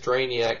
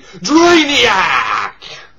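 First: It is said flatly, without emphasis. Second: It is said excitedly, with emphasis.

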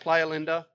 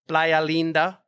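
First: The name is pronounced the English way. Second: The name is pronounced the Spanish way.

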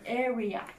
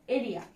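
First: The r sounds like a clear English r. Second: The r sounds like a Japanese katakana r. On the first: The speaker calls it right. "しっかり R の発音しっかり気をつけてください" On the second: The speaker calls it wrong. "エリアじゃなくて"

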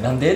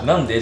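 First: It has a Kansai dialect pitch pattern. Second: It has a standard Tokyo Japanese pitch pattern. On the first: "関西弁のなんで" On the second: "なんでじゃなくて"

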